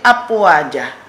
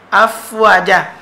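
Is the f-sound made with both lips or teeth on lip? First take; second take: both lips; teeth on lip. First: Both lips close together, giving a p-like sound. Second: The upper teeth touch the lower lip, giving f. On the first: The speaker calls it wrong. "Kalau semata-mata dua bibir mulut, ia jadi apwaja" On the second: The speaker calls it right. "Ambil gigi atas. Nih, hadap turun kepada perut bibir mulut bawah"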